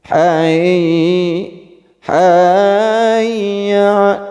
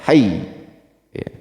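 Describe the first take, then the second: First: The doubled 'y' is drawn out following a melody. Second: The doubled 'y' is struck quickly and firmly. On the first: The speaker calls it wrong. "itu salah. Jangan mengikuti lagu" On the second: The speaker calls it right. "Harusnya memang syiddah harus digentak cepat"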